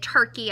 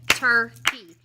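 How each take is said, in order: First: Said in the usual way. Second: "turkey" split into two loud beats; syllable by syllable. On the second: Shown as a demonstration. Teacher showing pupils how to count, syllable by syllable. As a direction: break "turkey" into tur, key. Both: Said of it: "syllables is where we count".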